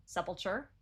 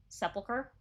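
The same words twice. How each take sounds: First: Sepulcher said SEP-ul-chur, soft ch ending, rising as a question; tentative SEP-ul-chur with a questioning rise; trying another pronunciation. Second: Sepulcher said SEP-ul-ker, hard k, rising as a question; tentative SEP-ul-ker with a questioning rise; trying a pronunciation. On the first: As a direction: try Sepulcher with a ch sound at the end, unsure. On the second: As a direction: try Sepulcher with a hard ker ending, unsure. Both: Shown as a demonstration. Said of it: "I guess it ends with cur".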